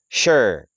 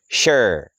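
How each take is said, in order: Both takes have the same delivery.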